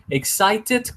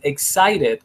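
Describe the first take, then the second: First: The middle consonant is a clear T sound. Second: The middle consonant is a quick R-like flap. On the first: "Excited con T is good" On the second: "excited con R is good"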